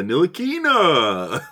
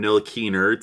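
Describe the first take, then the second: First: Ntilikina with the last A drawn way out; long final A. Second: Said in the usual way. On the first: Retold or imitated. Broadcaster naming Frank, Ntilikina with a long drawn-out A at the end. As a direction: stretch the final vowel of Ntilikina, broadcaster-style. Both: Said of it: "putting, like, the long A at the end".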